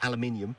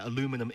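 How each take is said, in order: First: It is said the British way. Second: It is said the American way.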